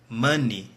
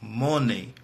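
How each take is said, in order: First: The word ends with a long ee sound. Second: The word ends with a different vowel sound. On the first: The speaker calls it right. "a pronúncia de dinheiro é money" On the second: The speaker calls it wrong. "e não money"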